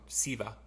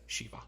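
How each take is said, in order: First: The name begins with a plain s sound. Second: The name begins with an sh sound. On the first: This may be the correct pronunciation. "people still call come call this song Siva, which is might be the correct pronunciation" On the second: This is how people from Chicago said it. "being from Chicago, we said Shiva"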